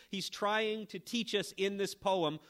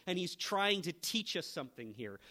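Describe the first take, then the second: First: Trying stressed, slower and louder; emphatic on trying. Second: Said in the usual way. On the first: Real, not acted. Preacher repeating his point to the congregation, slower and louder on trying. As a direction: lean hard on trying, drive it home.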